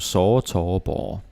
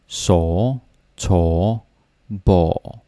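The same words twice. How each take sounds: First: The words are said at a normal, quicker speed. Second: The words are said slowly and drawn out. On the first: "That would be no, normal speed" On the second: "we usually don't say it so slowly"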